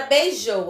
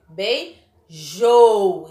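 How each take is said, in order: First: Said in the usual way. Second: "beijou" very slow, bei, then long loud JOU; stress on last syllable. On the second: Shown as a demonstration. Teacher shows last syllable is strongest, "beijou" split with loud JOU. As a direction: split "beijou" and push hard on the final syllable. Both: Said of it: "a última sílaba dela é a mais forte".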